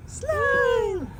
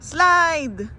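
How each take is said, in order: First: High cheering shout; excited cheer. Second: Said in the usual way. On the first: Real, not acted. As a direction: cheer her down the slide. Cheering kid down slide. (masayang sigaw)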